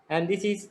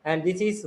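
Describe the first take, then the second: No difference in how they are said.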